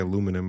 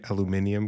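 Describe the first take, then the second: First: It is said with four syllables, American style. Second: It is said with five syllables, British style. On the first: This is the usual American form. "as Americans, we say aluminum" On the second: This form matches the extra letter. "it should be aluminium because there is an I"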